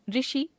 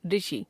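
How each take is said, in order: First: ऋषि said as रिषि, plain r plus i; wrong pronunciation. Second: Said in the usual way. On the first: Shown as a demonstration. Teacher showing a common error, ऋषि as रिषि. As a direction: open ऋषि with "ri". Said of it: "अशुद्ध". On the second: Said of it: "शुद्ध".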